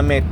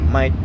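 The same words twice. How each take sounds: First: The vowel is a plain 'ay' sound. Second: The vowel is an 'eye'-like sound. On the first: "Imbis na mate" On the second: "Ay man yung big, bigkas nila"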